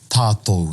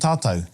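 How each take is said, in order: First: The word is said carefully in full, every sound pronounced. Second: The word is said in a shortened, natural form. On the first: The speaker is overthinking it. The speaker calls it wrong. "they all overthink it ... you don't say that" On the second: This is how people naturally say it. The speaker calls it right. "but you're saying tātou"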